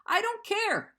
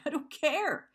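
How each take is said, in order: First: Much higher, louder, almost shouting; the repeat cracks up into a near-cry; real upset, rising. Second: Real upset. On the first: Venting to viewers about the ex, near-shouted repeat. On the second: Venting to viewers about the ex, upset insistence. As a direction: push it out, close to tears. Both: Real, not acted. Breaking down over ex.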